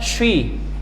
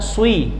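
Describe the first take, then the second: First: The consonant sounds like sh, shi. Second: The s is followed by lip rounding, swi. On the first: "atau bahkan syi" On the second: "Bukan swi"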